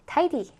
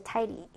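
First: "tidy." with a full D, like "tai-dee"; clear-D tidy. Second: "tidy." with a quick tapped D, like "tai-ree"; flapped tidy. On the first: Teacher repeats the word for learners, clear D pronunciation. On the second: Teacher shows learners the word, quiet flapped pronunciation. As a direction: soften the D in "tidy." to a light tap. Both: Shown as a demonstration.

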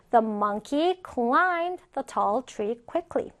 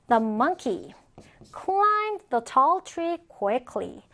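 First: Said in the usual way. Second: Slow, pausing after "monkey"; deliberate reading with a clear break after "monkey"; phrase by phrase. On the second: Shown as a demonstration. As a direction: model it in chunks for learners. Teacher models sentence in two pieces.

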